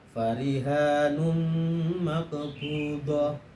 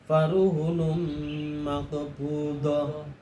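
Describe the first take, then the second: First: The first word has a long a after r. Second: The first word has short vowels and no long a. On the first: This is the reading of the other scholars. "selainnya adalah farihanum maqbudah" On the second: This is the reading of the Meccan and Basran scholars. "dibaca bi ghairi alifin"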